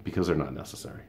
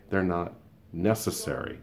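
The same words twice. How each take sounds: First: Said in the usual way. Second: "They're not" then pause, "necessary" landed firmly; emphatic repeat. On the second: Shown as a demonstration. Telling a coworker the groups aren't needed, with deliberate emphasis. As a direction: repeat it with a beat before "necessary".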